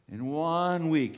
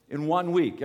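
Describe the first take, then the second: First: Slow, leaning hard on one; stress on one. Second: Said in the usual way. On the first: Shown as a demonstration. Preacher repeating for the congregation, stress on one. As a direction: drag out In one week, hitting one.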